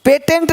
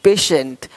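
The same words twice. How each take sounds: First: "पेटेंट" as pay-tent, higher; "पेटेंट" misread with t for sh; wrong t sound. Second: "पेशेंट" as pay-shent, low and falling; "पेशेंट" dropped lower, sh in the middle. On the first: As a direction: say "पेटेंट" with a hard middle t. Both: Shown as a demonstration. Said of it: "पेटेंट नहीं".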